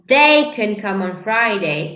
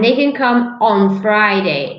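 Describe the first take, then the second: First: The stress falls on the word they. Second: The stress falls on the word Friday. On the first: A specific person can come. "if I stress they, it means I'm talking about a specific person" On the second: A specific day is meant. "If I stress on Friday"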